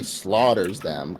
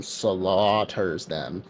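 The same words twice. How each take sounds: First: SLAUGHTERS stretched slowly for emphasis; emphatic. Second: SLAUGHTERS pulled apart into long, slow syllables; exaggerated emphasis. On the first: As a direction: lean slowly on the word "slaughters". Emphasizing how they were killed. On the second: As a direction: stretch "slaughters" out to almost double length. Repeats the word more drawn out. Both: Real, not acted.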